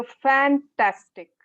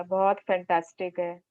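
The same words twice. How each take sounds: First: Slow, louder "fantastic" with real delight; strong feeling. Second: Said in the usual way. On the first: Shown as a demonstration. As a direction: burst out with genuine enthusiasm. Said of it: "आपकी strong feeling आती है". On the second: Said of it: "नहीं".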